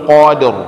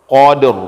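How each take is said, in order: The two takes are said the same way.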